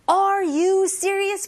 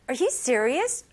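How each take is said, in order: First: "Are you serious?" loud, high and slow, each word separate; over-enunciated. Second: Said in the usual way. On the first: Shown as a demonstration. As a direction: punch out "Are" and "you" as full, separate words. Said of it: "보다는". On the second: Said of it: "이렇게 하면 돼요".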